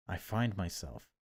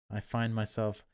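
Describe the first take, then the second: No difference in how they are said.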